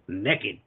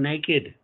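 First: The word is said in a Southern US accent. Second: The word is said in a standard accent. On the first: It is down and dirty. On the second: It is polite and artsy.

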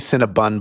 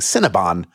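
First: The last syllable sounds like 'bun'. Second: The last syllable sounds like 'bon'. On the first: The speaker calls it wrong. "I think I say Cinnabon, but I know I'm wrong" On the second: The speaker calls it right. "I should be saying Cinnabon"

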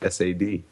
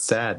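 First: The name is spelled out letter by letter. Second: The name is said as one word. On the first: The speaker calls it right. "judging by how they pronounce it in anime" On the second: The speaker calls it wrong. "it's not sad"

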